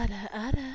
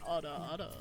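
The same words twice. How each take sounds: First: It is said in a high-pitched voice. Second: It is said in a lower voice.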